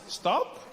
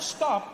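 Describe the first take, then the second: First: It is said as a casual suggestion. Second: It is said as a firm command.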